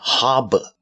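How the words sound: It is said with a British accent. "如果是我们读英国音呢是harbor"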